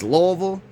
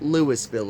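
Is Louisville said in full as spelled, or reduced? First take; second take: reduced; full. First: It is said shortened, like Luh-vul. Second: It is said fully, like Lewis-ville. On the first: It is how locals say it. The speaker calls it right. "It's Louisville" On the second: It is how an outsider says it. The speaker calls it wrong. "they don't call it Louisville around here"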